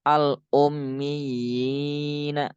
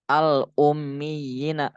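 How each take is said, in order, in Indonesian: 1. Vokalnya dibaca panjang. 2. Vokalnya dibaca pendek. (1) "yang benar al ummiyina. Baca panjang"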